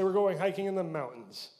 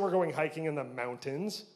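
First: It is said in a local Utah pronunciation. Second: It is said in a standard pronunciation. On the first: "We say" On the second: "We don't say"

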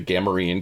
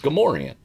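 First: The word is said the old book-learned way. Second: The word is said the actual spoken way. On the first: This is how it was imagined from reading. The speaker calls it wrong. "in my mind, it was like the Gamorrean guards" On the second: This is how it is really said. The speaker calls it right. "but it's Gamorrean"

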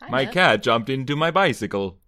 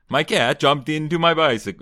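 First: It is said in a put-on Swedish accent. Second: It is said in a put-on Eastern European accent. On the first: "I'm doing Swedish now" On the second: "That sounds like a Borat quote"

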